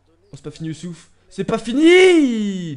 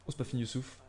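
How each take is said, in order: First: Builds to a long, drawn-out loud shout; excited shouting. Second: Said in the usual way. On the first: Real, not acted. Gamer urging Youssouf on, rising to a shout. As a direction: roar the last "fini" as the chance lives on. Chance missed, play goes on.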